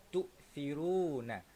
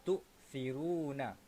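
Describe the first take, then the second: Both takes have the same delivery.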